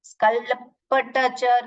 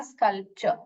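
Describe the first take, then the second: First: स्कल्पचर misread with an extra syllable, "skalpa-tacher"; mispronunciation demo. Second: स्कल्पचर in two syllables, "skalp-cher"; correct pronunciation. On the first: Teacher warning pupils how not to read it, over-spelled mispronunciation. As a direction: sound out स्कल्पचर wrongly as "skal-pa-ta-cher". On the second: Teacher giving pupils the right reading, two-syllable pronunciation. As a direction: say स्कल्पचर compactly, ending in a short "cher". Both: Shown as a demonstration. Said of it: "नहीं पढ़ने का".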